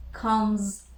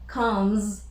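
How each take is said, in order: Both takes have the same delivery.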